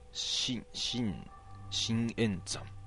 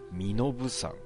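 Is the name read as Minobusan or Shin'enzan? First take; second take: Shin'enzan; Minobusan. First: It is read with Sino-Japanese readings, shin-en-zan. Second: It is read with native readings, mi-no-bu-san. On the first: The speaker calls it wrong. "そのまんま音読みだと読んじゃうけど全然違うっぽい" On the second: The speaker calls it right. "身延さんっていうのかこれ"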